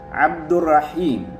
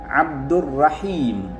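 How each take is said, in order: No difference in how they are said.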